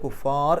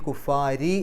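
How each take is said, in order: First: It ends on the r sound with no vowel. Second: It ends with an ri sound after r. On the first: The reader stops here. "റാഇന് സുക്കൂൻ ഇട്ടിട്ട് കുഫാർ എന്ന് പറഞ്ഞിട്ട് നിർത്തുക" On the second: The reader continues without stopping. "നിർത്താതെ പോവുകയാണെങ്കിൽ"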